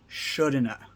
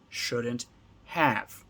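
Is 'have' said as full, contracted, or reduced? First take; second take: reduced; full. First: 'Have' is reduced to a weak 'a' sound. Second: 'Have' is said as a full separate word. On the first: "when we're speaking more quickly, more naturally" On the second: "Two words"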